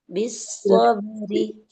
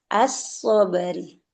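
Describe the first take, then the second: First: The opening vowel is dropped, joined to bi. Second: The opening vowel is clearly pronounced on its own. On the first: The word is joined to the word before it. "ketika disambung dengan bi, hamzah wasalnya tidak dibaca" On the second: The word stands alone, separated. "ketika dipisah, dia as-sobri"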